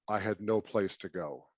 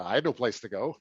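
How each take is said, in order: First: It is said in a sad, downcast tone. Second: It is said in a light, joking tone.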